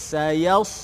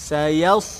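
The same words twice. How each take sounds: No difference in how they are said.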